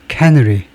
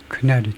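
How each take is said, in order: First: The stress is on the first syllable. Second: The stress is on the second syllable. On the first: The speaker calls it wrong. "우선 엉터리로 캐너리라고 발음을 한번 해보겠습니다" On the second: The speaker calls it right. "두 번째 실레블의 음절 액센트가 있네요"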